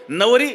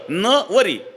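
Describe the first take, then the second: First: The word is said evenly, with no special stress. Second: The first syllable is stressed and set apart. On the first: It means bride. "नवरी सरळ" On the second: It means she will not marry him. "इथं नवर जोर दिला"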